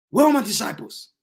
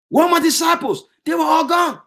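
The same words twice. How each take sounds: First: Said in the usual way. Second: Pitched up high, crying out; anguished cry. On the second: Acted. Jesus crying out that his disciples are gone, anguished. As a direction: call out the loss, voice rising. Jesus cries out, repeated louder.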